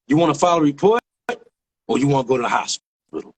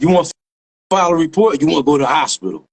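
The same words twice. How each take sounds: First: Unhurried offer with long pauses; measured question. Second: Brisker, more forceful retold question; insistent repeat. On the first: Retold or imitated. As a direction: imitate a cop laying out two options. Retold cop's first, measured offer. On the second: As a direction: imitate a cop pressing the question. Retold cop repeats after "Huh?.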